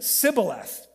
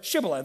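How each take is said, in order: First: The word begins with an s sound. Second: The word begins with a sh sound. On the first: The speaker is a native of the tribe. "the Ephraimites pronounced all sh sounds as S's" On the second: The speaker is not from the tribe. "the army forced him to say the word shibboleth"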